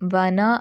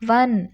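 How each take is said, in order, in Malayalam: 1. വാക്ക് പൂർണ്ണമായ അവസാന സ്വരത്തിൽ അവസാനിക്കുന്നു. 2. വാക്ക് വ്യഞ്ജനത്തിൽ അവസാനിക്കുന്നു, സ്വരം ഒഴിവാക്കുന്നു.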